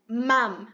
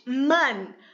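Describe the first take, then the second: First: The word ends with closed lips, like English mom. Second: The word ends with a tongue-tip n sound. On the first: "se falar mam, até parece mom de, no inglês" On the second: "eu tô fazendo o som de man nesse momento"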